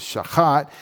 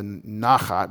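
First: Shachat stressed at the end, sha-KHAT; accent on last syllable. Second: Nachat stressed up front, NAH-khat; accent on first syllable. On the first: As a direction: lean on the second syllable of shachat. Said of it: "but this is shachat". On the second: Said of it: "This one doesn't because it's the". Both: Shown as a demonstration.

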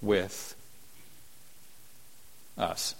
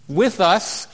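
First: "with us" dropped low and soft, drawn out; hushed, weighted "with"; emphasis on with. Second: "With us" cried out higher and louder; proclaimed. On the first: Shown as a demonstration. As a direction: lean into "with" quietly and slowly. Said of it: "if I could put all the emphasis on that word". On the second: Acted. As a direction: ring out "With us" from the pulpit. Preacher exclaiming key phrase.

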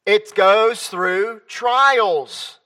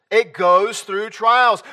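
First: Drawn out, every word slow and weighty. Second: Repeated a bit quicker, still slow. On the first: Preacher stressing trials to the congregation, very slow. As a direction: lay it down slowly. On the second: Preacher repeating the point about trials, slowly. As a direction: echo it slower than speech. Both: Real, not acted.

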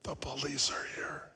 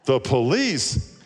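First: Put-on soft whispered child voice; child's whisper. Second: Surprised echo. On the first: Boy whispers that the police are there. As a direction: whisper it like a hiding kid. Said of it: "Still whispering". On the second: Acted. Caller echoes child in surprise.

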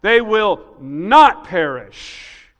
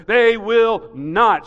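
First: NOT slow, much louder, long falling; not in all caps. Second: Slow loud "They will not" with a falling end; emphatic not. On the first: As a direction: shout "not" like capital letters. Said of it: "not in all caps". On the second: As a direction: hit "not" hard and slowly. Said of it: "So it'd be like". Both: Shown as a demonstration.

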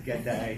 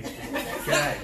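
First: G'day as an outsider tries it, "guh-day"; imitating a failed Australian G'day; mock wrong Australian. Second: G'day with a broad Australian vowel, "g'die"; g'day as a local Australian says it; Australian pronunciation. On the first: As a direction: say G'day with a plain American day. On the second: Shown as a demonstration. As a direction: say g'day louder, the Aussie way. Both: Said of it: "It's not "G'day, g'day".

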